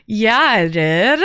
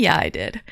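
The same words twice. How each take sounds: First: "Yeah, I did" stretched slowly, rising at the end; drawn-out confirmation. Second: Said in the usual way. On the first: Real, not acted. Streamer confirming a greeting was given, "did" drawn out and rising. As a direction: draw out "did" with a rising tune. Repeats own answer, drawn out.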